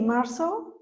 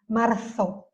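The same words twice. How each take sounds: First: The z sounds like an s. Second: The z sounds like English th.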